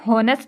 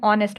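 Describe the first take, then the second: First: The h sound is pronounced at the start. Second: The word starts with a vowel sound. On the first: The speaker calls it wrong. "इसमें हॉनेस्ट नहीं बोलते" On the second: The speaker calls it right. "हम ऑनेस्ट बोलते हैं"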